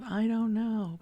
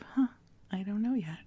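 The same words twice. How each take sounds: First: Louder, higher, anxious I don't know; stuck not knowing. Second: Light, open, wondering huh; curious not knowing. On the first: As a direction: say it as a frustrated dead end. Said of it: "not from this place of". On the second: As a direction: say it with easy curiosity. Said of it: "more from this place of". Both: Retold or imitated.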